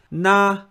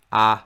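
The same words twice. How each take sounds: First: "na" raised high and level; high pitch. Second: "a" held low and level; low pitch. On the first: Teacher shows the stressed mora, "na" in high pitch. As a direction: lift "na" well above your usual pitch. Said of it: "pronounced with high pitch". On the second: Teacher shows the first mora, "a" in low pitch. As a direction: say "a" well below your usual pitch. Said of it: "pronounced with low pitch". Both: Shown as a demonstration.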